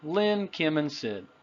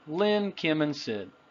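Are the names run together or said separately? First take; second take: run together; run together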